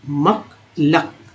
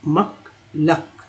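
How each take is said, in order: The two takes are said the same way.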